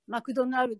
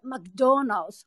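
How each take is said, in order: First: It is said in Japanese katakana style. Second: It is said with exaggerated English accentuation.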